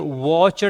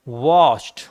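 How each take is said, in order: First: The ending is said as an extra syllable. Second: The ending is only a short final consonant. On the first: The speaker calls it wrong. "वॉचड नहीं कहना है" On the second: The speaker calls it right. "सिर्फ आपको डी बोलना है"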